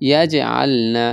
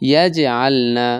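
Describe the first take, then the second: The two takes are said the same way.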